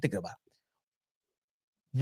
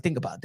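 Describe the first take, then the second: First: Very slow, much softer, lower trailing repeat; slow soft fade. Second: Said in the usual way. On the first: Retold or imitated. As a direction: let it die away slowly. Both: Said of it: "repeated, fading".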